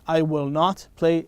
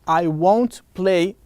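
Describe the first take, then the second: First: Will not is said as two separate words. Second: Will not is contracted into one syllable. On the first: "It has the same meaning" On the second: "I can make it shorter. Instead of saying will not, I will say won't"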